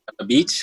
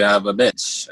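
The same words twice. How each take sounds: First: BEACH with a long EE vowel; beach pronounced plainly. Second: BITCH with a short I vowel; bitch pronounced plainly. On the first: Answering a request to say the two words, "beach" with long vowel. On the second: Answering a request to say the two words, "bitch" with short vowel. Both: Shown as a demonstration. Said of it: "just say the two words together".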